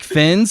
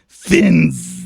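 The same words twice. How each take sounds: First: The name ends in a plain, short s sound. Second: The name ends in a long, buzzing z sound. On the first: "is it just pronounced like Fins" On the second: "you gotta hard Z it"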